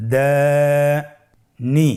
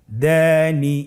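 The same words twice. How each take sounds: First: Dani split in two, first syllable held very long, then a pause; very drawn-out Dani with a gap in the middle; broken into syllables. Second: Dani run together with a long first vowel; connected Dani, no gap between syllables; syllables joined. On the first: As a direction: break Dani apart slowly, syllable by syllable. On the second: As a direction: join Dani into one unbroken piece. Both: Shown as a demonstration. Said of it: "ভেঙে ভেঙে পড়ব".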